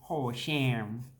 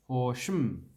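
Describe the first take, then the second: First: The second syllable has a full 'a' vowel. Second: The second syllable has a reduced 'uh' vowel. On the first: The speaker calls it wrong. "You don't say sham" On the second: The speaker calls it right. "you want to not say the A"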